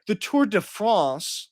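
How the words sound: It is said in a put-on European accent.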